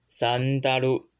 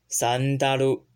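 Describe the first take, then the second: The two takes are said the same way.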